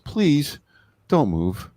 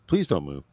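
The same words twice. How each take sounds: First: It is said in a pleading, begging voice. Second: It is said in a flat, robotic voice.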